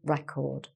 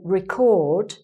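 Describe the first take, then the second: First: The stress is on the first syllable. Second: The stress is on the second syllable. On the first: It is a noun meaning a kept account. "the record, that's the noun" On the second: It is a verb meaning to capture or note. "change the stress and say record, that becomes the verb"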